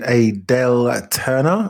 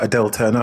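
First: Adele said AY-dell, with a full first vowel; first-try name pronunciation. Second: Adele said uh-DELL, with a reduced first vowel; light first syllable in "Adele", weight on DELL; corrected name pronunciation. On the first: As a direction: open "Adele" on a clear AY sound. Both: Real, not acted. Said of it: "I should say".

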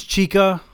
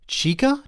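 First: "Chica." high and loud, a mocking flourish; teasing nickname. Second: "Chica?" very high, rising, disbelieving; incredulous repeat. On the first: Drunk husband needling his wife, mocking "Chica.". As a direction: tease her with "Chica.". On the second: Acted. Wife repeating the nickname her husband used, incredulous. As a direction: throw "Chica?" back in disbelief.

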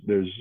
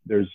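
No difference in how they are said.

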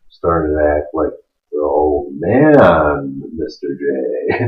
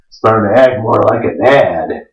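First: Put-on low, slow, faint old man. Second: Said in the usual way. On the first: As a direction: fade into a tired old man. Acting like his old dad.

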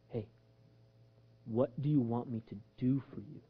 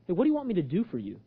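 First: Low, hushed, unhurried asking; gentle question. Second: Brisk, offhand question; casual quick repeat. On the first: Acted. Jesus asking the blind man his need, gently. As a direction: ask very softly, with pauses. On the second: Retold or imitated. Preacher requoting Jesus as a puzzle, casually quick.

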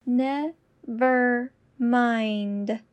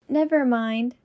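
First: Very slow and deliberate. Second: Said in the usual way. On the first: Shown as a demonstration. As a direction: stretch every syllable. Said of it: "repetition drill, slowed take". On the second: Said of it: "repetition drill, normal take".

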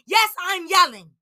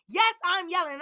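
First: Raised, heated voice; yelling it out at the listeners; real yelling. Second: Said in the usual way. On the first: Real, not acted. Ranting to listeners about racism, yelling.

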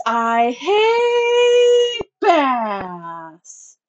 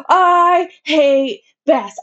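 First: Slow, high, sing-song crying wail; wailing sob. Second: Slow, high, shrill shriek; screaming tantrum. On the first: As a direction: let it dissolve into a drawn-out sobbing howl. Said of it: "piercing shriek". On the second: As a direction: stretch each word into a furious yell. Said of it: "and yelled". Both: A narrator's reading.

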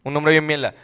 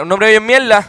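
First: Said in the usual way. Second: Mira, un nombre bien mierda, said louder and faster. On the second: Shown as a demonstration. Repeating the insult, louder and faster. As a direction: push it out louder and quicker. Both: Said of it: "Mira, un nombre bien mierda".

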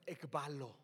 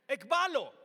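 First: "ekbalo" said softly and clearly as EK-BA-lo, a falling teaching model; Greek word taught. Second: "ekbalo" called out much louder with a firm fall; loud proclamation. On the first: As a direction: lay out "ekbalo" gently so they can repeat it. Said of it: "apréndete esta, ekbalo". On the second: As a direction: punch "ekbalo" like a command. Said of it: "¿Qué significa?". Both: Shown as a demonstration.

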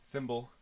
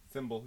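First: Thimble with a slight whistle on the th; lisped thimble. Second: Thimble with a slight whistling th; lisped thimble. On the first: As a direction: say thimble with a small lisp. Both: Shown as a demonstration. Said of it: "Kinda whistles".

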